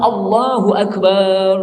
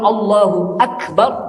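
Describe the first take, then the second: First: The last vowel of akbar is drawn out long. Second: The last vowel of akbar is kept short. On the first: God is a drum. The speaker calls it wrong. "berarti Allah itu beduk" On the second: God is great. The speaker calls it right. "Allah maha besar"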